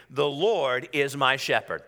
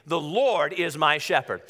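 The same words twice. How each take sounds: First: Slow, steady declaration; out-loud declaration. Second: Slow, emphatic declaration; like you mean it. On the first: Preacher leads congregation in declaring the verse, slow declaration. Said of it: "declare that with me out loud". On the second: Preacher urging congregation to mean it, emphatic declaration. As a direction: declare it slowly with real conviction. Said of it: "say it like you mean it". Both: Real, not acted.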